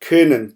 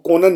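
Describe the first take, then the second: First: The first vowel is a front rounded ö. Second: The first vowel is a plain back o. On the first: The speaker calls it right. "यहाँ पर आवाज़ गोल होगी क्योंकि ओ के ऊपर उमलाउट है" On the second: The speaker calls it wrong. "आप इसको कोनन नहीं पढ़ेंगे"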